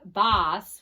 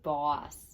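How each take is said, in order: First: The vowel is not the aw sound. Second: The vowel is the aw sound. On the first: The speaker calls it wrong. "We don't say" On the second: The speaker calls it right. "We say"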